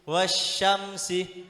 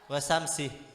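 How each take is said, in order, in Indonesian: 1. Bunyi sh setelah wa dibaca ganda. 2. Bunyi setelah wa pendek dan tunggal. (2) "itu beda dengan bacaan wasamsi"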